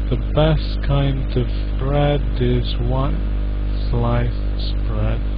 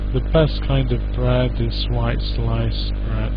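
First: It is said slowly, one syllable at a time. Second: It is said more quickly, syllables joined together. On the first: "So we can read each syllable slowly, syllable by syllable" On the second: "put it together to make it a bit quicker"

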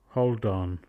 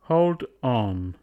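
First: The D moves forward and joins onto on. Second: The D stays at the end of hold.

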